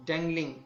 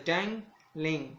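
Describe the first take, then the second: First: Said in the usual way. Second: dangling slowly split into dang and लिंग; two slow separate beats in dangling; broken into syllables. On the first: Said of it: "इस तरह break होता है". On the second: Shown as a demonstration. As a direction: pull dangling apart, pausing after dang. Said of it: "ये देखें इस तरह break होता है".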